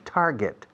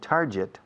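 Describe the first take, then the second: First: The second syllable sounds like 'get'. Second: The second syllable does not sound like 'get'. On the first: The speaker calls it right. "se pronuncia get, ¿no? Pues pon tar delante" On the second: The speaker calls it wrong.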